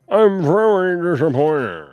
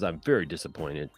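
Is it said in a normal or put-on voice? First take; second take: put-on; normal. First: It is read in a put-on voice. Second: It is read in his normal voice.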